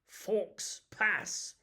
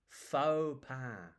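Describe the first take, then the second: First: It sounds like the English words 'forks pass'. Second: It is said without the 'forks pass' sounds. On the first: The speaker calls it wrong. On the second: The speaker calls it right.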